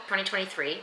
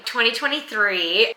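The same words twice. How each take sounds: First: Said in the usual way. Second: "Twenty twenty-three" rising, slower, in disbelief; "Twenty twenty-three" repeated in shocked realisation; surprised. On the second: Real, not acted. Vlogger catching her own mistake, "Twenty twenty-three" in disbelief. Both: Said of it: "Did I say twenty twenty-three".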